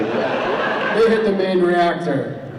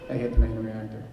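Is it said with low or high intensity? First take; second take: high; low. First: It is said with high intensity. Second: It is said with low intensity.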